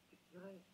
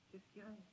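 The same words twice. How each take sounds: The two takes are said the same way.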